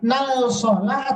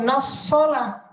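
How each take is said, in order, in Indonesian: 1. Bunyi L pada artikel dibaca. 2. Bunyi L melebur menjadi S yang bertasydid.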